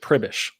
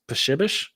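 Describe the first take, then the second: First: It starts with a plain pr sound. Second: It starts with a psh sound. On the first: This is the everyday form the family uses. "you pronounce it Pribish" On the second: This is the original form in the source language. "the Polish pronunciation of it, I believe, is Pshibish"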